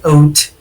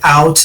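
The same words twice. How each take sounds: First: The vowel is raised, closer to 'oot'. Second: The vowel is the usual open 'ow' sound. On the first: "they say out" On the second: "instead of saying like out"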